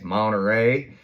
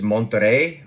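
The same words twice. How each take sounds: First: The name is said with a Southern American accent. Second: The name is said with a Spanish accent.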